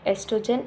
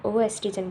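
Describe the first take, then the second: First: The word starts directly with an 'es' sound. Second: The word starts with an extra 'oh' sound. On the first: The speaker calls it right. "इसमें ओ silent है" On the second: The speaker calls it wrong. "इसका मतलब ये नहीं कि हम लोग इसको ओ एस्ट्रोजन ओ एस्ट्रोजन बोलेंगे"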